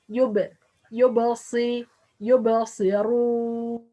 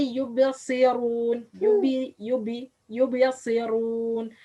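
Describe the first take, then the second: First: "yubasirun" with a bounced release on the b; ba with qalqala. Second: "yubasirun" with the b left unbounced; missing qalqala. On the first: Teacher models ba with sukun, qalqala bounce. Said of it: "be made qalqala". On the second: Teacher shows most people's mistake, no qalqala. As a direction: say "yubasirun" wrongly, no echoing release on the b. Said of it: "Not make qalqala". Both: Shown as a demonstration.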